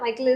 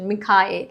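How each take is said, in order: First: The name is said in two syllables, like Mykel. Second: The name is said in three syllables, like Mikhael. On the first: The speaker calls it wrong. "മൈക്കിൾ is wrong" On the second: The speaker calls it right. "മിഖായേൽ is the correct pronunciation"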